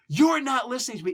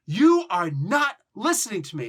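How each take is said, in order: First: Said in the usual way. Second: Loud, each word hit separately; forceful, emphatic scolding yell; yelling at somebody. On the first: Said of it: "If you just say". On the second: Shown as a demonstration. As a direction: accuse them, stressing every uncontracted word. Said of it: "when you're yelling at somebody".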